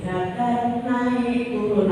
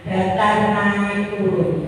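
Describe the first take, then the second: First: The same slow tones, quieter; softer slow repeat. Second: Said slowly, pitch tracing each word; slow level, rise, fall. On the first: Teacher repeating the tones more softly. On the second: Teacher demonstrating the tones slowly. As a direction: draw out the three tones. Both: Shown as a demonstration. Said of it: "iramanya bagaimana?".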